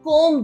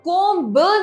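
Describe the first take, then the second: First: No b sound is heard at the end. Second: A b sound is heard at the end. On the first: The speaker calls it right. "जिसमें बी is always silent" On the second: The speaker calls it wrong. "हम कोम ब नहीं बोलते"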